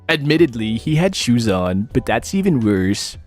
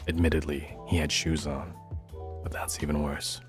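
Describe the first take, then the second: First: It is read in a plain, ordinary way. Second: It is read in a creepy, freaky way.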